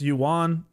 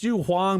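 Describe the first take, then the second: First: The name has no h sound in the middle. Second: The name has an h sound in the middle. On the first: This is how other players say it. "they say it's Yuan" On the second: This is the real name. "It's Yu Huang"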